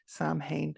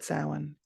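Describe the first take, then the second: First: It is said the way American television says it. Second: It is said the way people in Ireland say it. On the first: The speaker calls it wrong. "it's not okay to pronounce it Samhain" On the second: The speaker calls it right. "We call it Samhain in Ireland"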